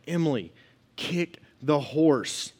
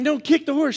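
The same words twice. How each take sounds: First: Slow, word-by-word command at normal volume; retold yelling, measured. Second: Loud, high-pitched repeated command; exasperated yelling. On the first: Husband instructing his wife on horseback, slow emphatic order. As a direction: spell out "kick the horse" slowly and firmly. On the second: Retold or imitated. Husband yelling at his wife to kick, exasperated high shout. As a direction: shout it higher and louder, losing patience. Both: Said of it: "The whole time I'm yelling at her".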